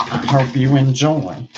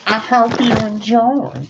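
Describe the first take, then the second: First: Said in the usual way. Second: Much higher, louder showy sign-off; high-pitched mock presenter; high put-on voice. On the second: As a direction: repeat it in a high, loud silly voice.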